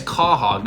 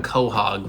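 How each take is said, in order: First: "quahog" as KAW-hog, open first vowel; correct pronunciation. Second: "quahog" as KOH-hog, round "oh" first; wrong pronunciation. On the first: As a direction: stress "quahog" with an "ah" up front. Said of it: "Yeah, it's quahog, not quahog". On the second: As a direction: say "quahog" with a long O up front. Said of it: "not quahog". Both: Shown as a demonstration.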